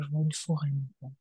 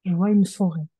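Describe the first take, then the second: First: Soft, quick, half to herself; murmured fast and low; quiet murmur. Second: Louder, said clearly for the listener; clearer repeat. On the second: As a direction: speak up and repeat it plainly. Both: Real, not acted. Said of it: "Tu dis?".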